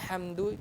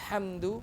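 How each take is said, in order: Both takes have the same delivery.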